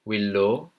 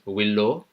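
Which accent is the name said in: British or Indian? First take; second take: Indian; Indian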